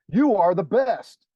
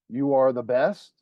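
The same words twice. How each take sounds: First: It is said as an exclamation. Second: It is said as a question.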